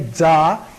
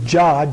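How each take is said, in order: First: The syllable is said the Tibetan way. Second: The syllable is said the Sanskrit way. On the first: "Tibetans say Dza" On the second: "In the Sanskrit, it is actually Jah"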